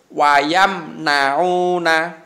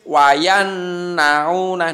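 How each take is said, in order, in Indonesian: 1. Bunyi m diucapkan dengan jelas sebelum n. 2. Bunyi m menyatu dengan bunyi n yang mengikutinya. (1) "Harus wayam nauna" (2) "Tidak boleh wayan nauna"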